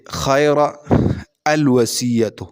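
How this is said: There is a stop after the first word.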